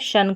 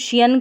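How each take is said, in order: First: The ending is said as one syllable, shun. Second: The ending is said as two syllables, shee-an. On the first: The speaker calls it right. "Correct pronunciation रहता है शन" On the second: The speaker calls it wrong. "शियन करके भी पढ़ देते हैं"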